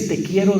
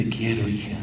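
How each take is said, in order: First: Said in the usual way. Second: Soft, hushed "te quiero" to a daughter; tender father. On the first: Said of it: "Mire, ese "te quiero". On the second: Retold or imitated. Father quietly telling his daughter he loves her, tender. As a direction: say it low and gentle, like a hug in words. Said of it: "cuando le dice".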